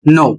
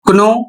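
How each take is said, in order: First: The word starts with an n sound. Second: The word starts with a k sound. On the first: The speaker calls it right. "इसका सही उच्चारण होगा नो" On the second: The speaker calls it wrong. "यदि आप पढ़ते हैं कनो ... तो आप गलत पढ़ रहे हैं"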